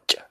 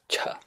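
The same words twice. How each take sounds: First: The ch sound has no puff of breath. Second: The ch sound has a puff of breath.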